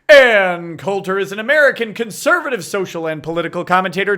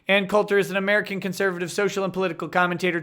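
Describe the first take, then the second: First: It is read in a booming announcer voice. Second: It is read in a plain, ordinary reading voice. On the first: The speaker calls it right. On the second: The speaker calls it wrong.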